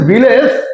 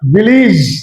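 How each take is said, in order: First: The last syllable has an open 'eh' vowel. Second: The last syllable has a short 'ih' vowel. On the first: The speaker calls it wrong. "ভিলেজ হবে না" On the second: The speaker calls it right. "তাহলে ভিলেজ হবে না ভিলিজ"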